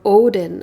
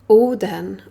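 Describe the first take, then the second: First: The name has an English pronunciation. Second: The name has a non-English pronunciation.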